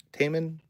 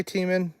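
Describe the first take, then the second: First: Taman said as TAY-mun, tentatively; first vowel of Taman as in "tame"; uncertain pronunciation. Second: Taman said as TEE-mun; first vowel of Taman as in "team"; uncertain pronunciation. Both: Real, not acted. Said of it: "I don't know how to pronounce that".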